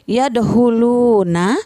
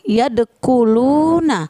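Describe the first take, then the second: First: The consonant after yad is a plain h. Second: The consonant after yad is a hard k. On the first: "bukan huruf h atau ko. Jadi tidak boleh dibaca" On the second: "bukan huruf h atau ko. Jadi tidak boleh dibaca"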